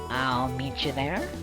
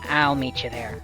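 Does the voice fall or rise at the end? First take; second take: rises; falls. First: The voice rises at the end. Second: The voice falls at the end.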